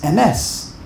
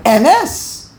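First: Emes slowly, with weight on MES; proper final stress. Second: Emes slowly, with a heavy first syllable; wrong first-syllable stress. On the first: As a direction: land on the last syllable of Emes. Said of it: "that's why it's really M S". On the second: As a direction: lean hard on E in Emes. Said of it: "the wrong way". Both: Shown as a demonstration.

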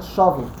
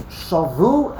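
First: "shavu" with the stress on SHA; contrasted syllable stress. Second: "shavu" with the stress on final VU; contrasted syllable stress. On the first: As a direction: lean on the start of "shavu": SHA-vu. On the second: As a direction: push "shavu" to its end: sha-VU. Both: Shown as a demonstration. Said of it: "mila'el, milara".

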